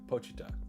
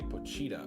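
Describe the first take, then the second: First: The middle 'chee' syllable is not emphasized. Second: The middle 'chee' syllable is strongly stressed. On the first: The speaker calls it right. "It's not like an emphasis on the cheetah" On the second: The speaker calls it wrong. "I used to say Pochita, but apparently that's incorrect"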